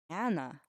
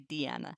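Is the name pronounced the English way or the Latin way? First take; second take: English; Latin. First: The name is pronounced the English way. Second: The name is pronounced the Latin way. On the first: The speaker calls it wrong. "now I'm mixing up my pronunciation between the English and the Latin" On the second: The speaker calls it right. "I guess I should say Diana"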